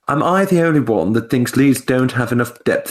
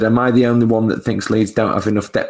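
First: It is read in a put-on posh accent. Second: It is read in the speaker's normal voice. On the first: "Do a posh accent for Fulham" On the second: "I'll spare you the Michael Caine"

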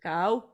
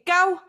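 First: The word is said on a lower pitch. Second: The word is said on a high pitch. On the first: It means the number nine. The speaker calls it right. "if you want to say number nine, it's go" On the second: It is a bad, rude word. The speaker calls it wrong. "Don't go high pitch"

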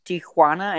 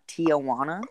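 First: The name is said the Spanish way. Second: The name is said the Anglicized way. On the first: The speaker calls it right. "it's pronounced Tijuana" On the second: The speaker calls it wrong. "and not Tijuana, which, as a gringo, I've been mispronouncing my whole life"

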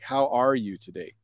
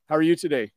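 First: The question is asked slowly and warmly. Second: The question is asked quickly and lightly. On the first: The speaker really wants to know how the other person is. "I might ask it differently" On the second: It is a routine greeting with no real interest in the answer. "if a colleague says, hey, how are you today?"

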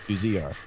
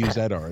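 First: The letters are said with an American pronunciation. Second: The letters are said with a Canadian pronunciation. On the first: The speaker calls it wrong. "it's not UZR" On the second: The speaker calls it right. "I just wanted to do it in Canadian"

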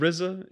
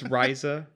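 First: The name is pronounced the Wu-Tang way. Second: The name is pronounced the other, non-Wu-Tang way. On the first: "if you're from the Wu-Tang pronunciation" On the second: "If not, it's [name]"

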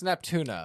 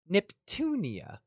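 First: The name has no 'ee' sound before the end. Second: The name has an 'ee' sound before the end. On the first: The speaker calls it wrong. "we're pronouncing it wrong" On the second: The speaker calls it right. "Like a petunia with a Neptune"

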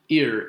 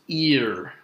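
First: The vowel is short and clipped. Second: The vowel is long and stretched out. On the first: The speaker calls it wrong. "it's not just ear" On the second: The speaker calls it right. "it's a stretched out vowel sound"

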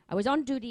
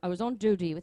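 First: The voice is pitched at a higher, usual level. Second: The voice is pitched noticeably lower and deeper.

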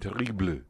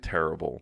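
First: It is said Parisian style, with a final vowel. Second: It is said with an English pronunciation. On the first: "like Paris, you might hear more like terrible. You'd even hear the E at the end" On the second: "like in English, we would say terrible"

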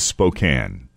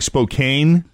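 First: The last syllable rhymes with 'can'. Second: The last syllable rhymes with 'cane'. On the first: The speaker calls it right. "But it is Spokane" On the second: The speaker calls it wrong. "Looks like Spokane"

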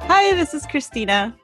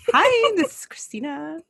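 First: The greeting sounds flat and unenthusiastic. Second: The greeting sounds bright and upbeat. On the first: "You don't sound that cheerful" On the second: "My Dutch brother's voice"

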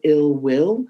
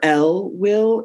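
First: The first word sounds like 'ill'. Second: The first word sounds like 'ell'.

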